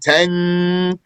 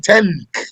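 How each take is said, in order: First: The n is held long with a nasal hum. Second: The n is made at the front of the tongue. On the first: "If we were to put a ghunna there, we'd be saying tank" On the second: "Usually not from the front of the tongue. You don't say tank"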